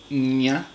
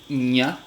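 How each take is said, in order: Both takes have the same delivery.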